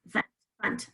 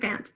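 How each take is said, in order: First: The vowel is a weak schwa. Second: The vowel is a full 'a' sound. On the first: The speaker calls it right. "that third syllable is also elephant" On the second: The speaker calls it wrong. "I don't say fant"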